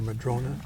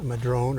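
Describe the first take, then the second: First: The word ends with an added 'ah' vowel. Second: The word ends on the 'n' sound. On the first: "depending on how you choose to pronounce it" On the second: "depending on how you choose to pronounce it"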